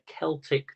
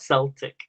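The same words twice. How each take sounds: First: It is pronounced the way used for ancient tribes. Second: It is pronounced the way used for the football team. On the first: It refers to the ancient peoples. The speaker calls it right. "I think that's how you pronounce it" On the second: It refers to the football club. The speaker calls it wrong. "It's not Celtic. That's the football team"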